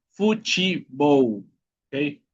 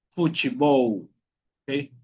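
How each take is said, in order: No difference in how they are said.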